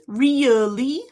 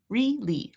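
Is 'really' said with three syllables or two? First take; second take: three; two. First: The word is said in three syllables. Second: The word is said in two syllables. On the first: "I could do it in three syllables" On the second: "I can do it in two"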